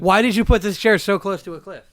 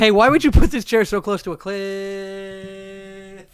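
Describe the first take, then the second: First: The word cliff is said short. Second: The word cliff is drawn out long.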